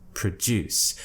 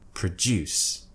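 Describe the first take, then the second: First: The stress is on the second syllable. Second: The same.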